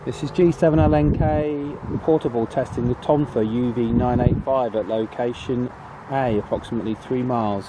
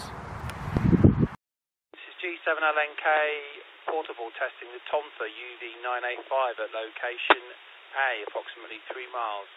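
First: Said in the usual way. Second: Much softer, through a radio speaker; tinny radio playback; over the radio. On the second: Shown as a demonstration. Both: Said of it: "we're here with the, uh, the Tonfa".

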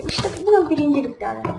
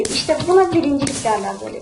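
First: Said in the usual way. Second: Fast, showy boast; proud bragging, quick and pushed; gloating. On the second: Real, not acted. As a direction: crow about the win. Gloating after winning.

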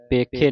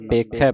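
First: ਪੇਖੇ with a closed "ay" ending; wrong vowel ending. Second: ਪੇਖੈ with an open "ai" ending; double-lavan vowel. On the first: Teacher shows congregation the reading to avoid, ਪੇਖੇ with closed e. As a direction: end ਪੇਖੇ on a narrow e, as in "pay-khay". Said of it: "ਪੇਖੇ ਨਹੀਂ ਪੜ੍ਹਨਾ". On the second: Teacher corrects congregation's reading, ਪੇਖੈ with open ai. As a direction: end ਪੇਖੈ on a wide ai, as in "pekh-eh". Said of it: "ਦਲਾਵਾਂ ਲੱਗੀਆਂ". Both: Shown as a demonstration.

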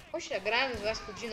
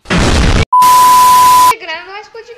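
First: Said in the usual way. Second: "A granada não vai explodir" yelled very high, loud and drawn out; outraged slow shout; exasperated yell. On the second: Real, not acted. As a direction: scream it at the game in disbelief.

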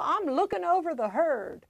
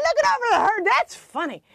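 First: Joking comeback. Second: High, loud imitation of delighted grandpa; amused grandfather. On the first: Retold or imitated. Grandchild joking to Grandpa about marriage, light retold quip. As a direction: own joking reply, pitch lifted. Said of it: "And I'd say". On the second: Grandfather slapping his knee at the joke, high, loud imitation. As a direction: hoot it back like a tickled grandfather. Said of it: "He'd slap his knee and go".

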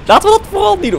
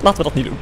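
First: High, loud burst of insistence; emphatic exclamation. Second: Said in the usual way. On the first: Real, not acted. Player deciding against going outside, emphatic high exclamation. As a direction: jump up in pitch and volume. Emphatic repeat of the same decision.

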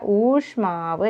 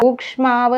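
First: ഊഷ്മാവ് with plain sh, no k; correct form. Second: ഊക്ഷ്മാവ് with an added k before sh; wrong form. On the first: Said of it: "എന്നേ വരുള്ളൂ". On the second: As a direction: show the mistaken ക്ഷ in ഊക്ഷ്മാവ്. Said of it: "എന്നല്ല". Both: Shown as a demonstration.

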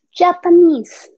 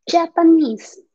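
First: Japanese said slowly and drawn out, stress on the last syllable; a slow, careful teacher's Japanese; model pronunciation. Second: Japanese said at normal pace, falling at the end; a plain teacher's repeat of Japanese; clear repeat. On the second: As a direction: say Japanese once more, crisply. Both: Shown as a demonstration.

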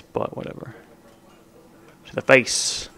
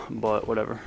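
First: Breathy under-the-breath whatever; whispered shrug. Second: Said in the usual way. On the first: Real, not acted. Gamer muttering to himself mid-match, whispered. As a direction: whisper it to yourself, dismissive.

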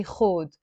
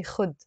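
First: خود with a long o vowel; Lebanese khood. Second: خد with a short clipped u; Egyptian khud. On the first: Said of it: "we say". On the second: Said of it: "they say". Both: Shown as a demonstration.

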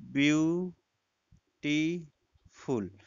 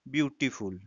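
First: Very slow BEAU-TI-FUL, split into three; syllable by syllable. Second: Said in the usual way. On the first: Shown as a demonstration. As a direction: say beautiful in three drawn-out, separate syllables. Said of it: "इसमें तीन syllable आ गया". (Beautiful को तीन हिस्सों में तोड़कर, बहुत धीरे) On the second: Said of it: "हम जैसे हम कहें".

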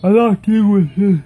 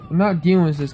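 First: Louder, defiant refusal with a rising end; fed-up outburst. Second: Said in the usual way. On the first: Real, not acted. Kid refusing to put up with hackers, loud and fed up. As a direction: push it out, done with it all. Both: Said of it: "It's making me so mad".

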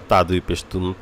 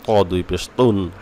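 First: Said in the usual way. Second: Slow, "তুন" with a thick, heavy t; heavy taw. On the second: Shown as a demonstration. Teacher showing letter differences, slow heavy "ত ... তুন". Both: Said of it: "এই পার্থক্যগুলো আমাদেরকে করতে হবে".

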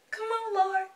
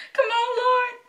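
First: High-pitched plea; pleading. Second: Loud, very high wailed plea; desperate pleading. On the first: Fan waiting in the ticket queue, pleading high. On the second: Fan waiting in the ticket queue, wailing a loud plea. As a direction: cry out to the Lord, high and loud. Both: Real, not acted.

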